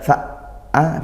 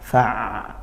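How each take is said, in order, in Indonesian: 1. Bunyi ain berhenti mendadak seperti hamzah. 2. Bunyi ain mengalir lancar ke vokalnya. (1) "tidak fa'a berhenti, itu seperti hamzah" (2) "maka dia dialirkan dulu"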